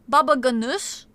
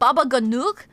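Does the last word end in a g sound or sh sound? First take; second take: sh sound; g sound. First: The last word ends with an sh sound. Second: The last word ends with a hard g sound. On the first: "is it pronounced with a sh?" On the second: "it had a G at the end. So like"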